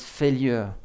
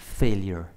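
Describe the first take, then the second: First: The word is said with a French accent. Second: The word is said with an English accent. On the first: "si vous le prononcez un peu à la française" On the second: "en anglais"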